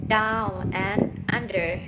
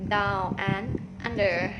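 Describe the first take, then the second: Both takes have the same delivery.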